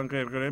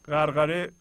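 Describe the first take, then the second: First: غرغره said "gherghere", with e-vowels; colloquial pronunciation. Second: غرغره said "gharghare", with a-vowels; formal pronunciation. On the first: Teacher shows how Persian speakers usually say it, غرغره as "gherghere". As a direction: say غرغره as "gher-ghe-re". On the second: Teacher gives the word before its common Persian form, غرغره as "gharghare". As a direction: say غرغره as "ghar-gha-re". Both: Shown as a demonstration.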